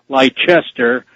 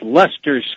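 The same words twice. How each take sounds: First: It is said with a spelling-based American pronunciation. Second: It is said with the British pronunciation. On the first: The speaker calls it wrong. "Most Americans would probably uh, pronounce that" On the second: The speaker calls it right. "it's actually by the Brits pronounced"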